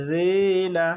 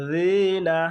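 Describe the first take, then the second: Both takes have the same delivery.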